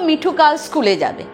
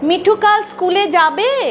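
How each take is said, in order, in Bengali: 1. এটি সাধারণ বিবৃতিমূলক সুরে বলা হয়েছে। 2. এটি প্রশ্নসূচক সুরে বলা হয়েছে। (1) "বিবৃতি বাক্য" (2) "সুর করে জিজ্ঞাস্য হয়ে গেল"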